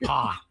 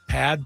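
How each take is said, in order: First: The word ends on the vowel, without d. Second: The word ends with a clear d sound. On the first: The speaker calls it right. "it's not Pad" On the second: The speaker calls it wrong. "That might be the American pronunciation"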